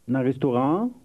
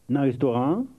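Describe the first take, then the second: The two takes are said the same way.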